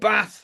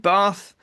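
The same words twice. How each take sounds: First: It is said with a northern English accent. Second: It is said with a southern English accent.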